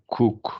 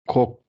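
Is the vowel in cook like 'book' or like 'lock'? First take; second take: book; lock. First: The vowel is a short oo, as in book. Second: The vowel is an open o, as in lock. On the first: The speaker calls it right. "cook mesela" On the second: The speaker calls it wrong. "cock demeyeceksin"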